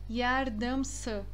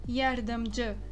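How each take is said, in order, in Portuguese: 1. A consoante final é um som 's'. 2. A consoante final é um som 'dj'.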